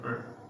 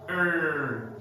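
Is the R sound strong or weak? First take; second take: weak; strong. First: The R sound is weak or missing. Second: The R sound is strongly pronounced. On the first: The speaker calls it wrong. "instead of er" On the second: The speaker calls it right. "They pronounce the R er"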